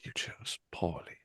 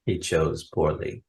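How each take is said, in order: First: Low, slow whispered "You chose poorly"; movie quote whisper. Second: Low whispered "He chose poorly"; movie quote whisper. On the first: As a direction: whisper the verdict gravely. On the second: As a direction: hush it like the grail knight. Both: Retold or imitated. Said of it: "Indiana Jones and the Last Crusade fans".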